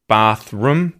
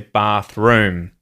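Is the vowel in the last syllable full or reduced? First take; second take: reduced; full. First: The last vowel is reduced to a schwa. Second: The last vowel is kept as a full vowel. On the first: The speaker calls it wrong. "you don't say that" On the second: The speaker calls it right. "You say bathroom"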